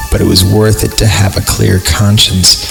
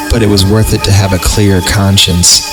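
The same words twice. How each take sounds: The two takes are said the same way.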